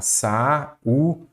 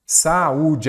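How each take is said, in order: First: "Saúde" said syllable by syllable, sa-ú-de; split into syllables. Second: Said in the usual way. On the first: Shown as a demonstration. Teacher dividing the word to show the hiatus, "Saúde" in separated syllables. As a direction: break "Saúde" into three separate beats. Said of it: "Vamos separar aqui". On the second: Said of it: "acabei de explicar".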